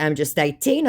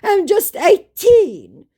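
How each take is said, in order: First: Said in the usual way. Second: High, loud, drawn-out "eighteen"; mock scammer. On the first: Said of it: "And in response to". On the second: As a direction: plead youth mockingly, stretched right up. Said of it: "he said".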